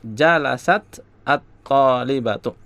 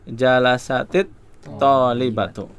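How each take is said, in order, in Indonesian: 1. Kedua kata dipisahkan oleh jeda. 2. Kedua kata tersambung dengan tambahan vokal i. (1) "ketika membacanya berhenti, nggak bisa nyambung" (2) "mau disambung maka ... sukun yang pertama itu dibaca kasroh"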